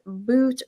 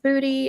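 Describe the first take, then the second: First: The name is one syllable ending in t. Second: The name ends in an ee vowel. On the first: "It's not pronounced boot" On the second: "it's not pronounced booty"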